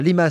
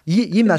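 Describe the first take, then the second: First: The name begins with an L sound. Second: The name begins with a Y sound. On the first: "Tu dis pas Limas" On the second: "je le prononce à l'espagnol"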